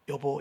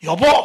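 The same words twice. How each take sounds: First: It is said softly and gently. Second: It is said in a loud, sharp voice.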